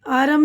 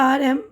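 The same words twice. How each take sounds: The two takes are said the same way.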